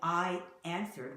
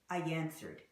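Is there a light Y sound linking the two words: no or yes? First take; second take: no; yes. First: The words are said without a linking Y sound. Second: A light Y sound links the two words. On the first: The speaker calls it wrong. "instead of saying I answered" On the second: The speaker calls it right. "we say I answered. And I exaggerated that"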